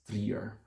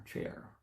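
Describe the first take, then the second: First: "Trier" said the German way, like "treer" with a long ee; German pronunciation of Trier. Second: "Trier" said his way with an English diphthong, like "trier" rhyming with "fire"; his own way of saying Trier. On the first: Vlogger shows how Germans pronounce Trier. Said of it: "the Germans would pronounce it as Trier". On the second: Vlogger shows his own wrong Trier, the American way. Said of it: "So I would pronounce it as Trier". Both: Shown as a demonstration.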